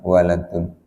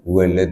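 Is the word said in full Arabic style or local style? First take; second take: Arabic; local. First: It is said in full, ending in 'un'. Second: It is clipped, ending on the 'd'. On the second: "pengucapannya logat kita"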